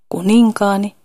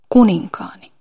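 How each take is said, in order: First: The stress falls on a later syllable. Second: The stress falls on the first syllable. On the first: The speaker calls it wrong. "Ei siis voi sanoa kuninkaani" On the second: The speaker calls it right. "sanan paino on sen ensimmäisellä tavulla"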